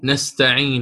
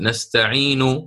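First: The final vowel is only faintly, partly voiced. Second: The final vowel is voiced fully and completely. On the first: "فأنت تقف تقول نستعين" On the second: "لو أردت أن تأتي بها كاملة ستقول نستعين كاملة"

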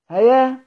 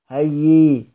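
First: The word ends with a long a sound. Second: The word ends with a y sound. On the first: The speaker calls it wrong. "هتخالف المعنى أصلا" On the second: The speaker calls it right. "الوقف على ذلك كله على الوجه القياسي بإبدال الهمزة ياء"

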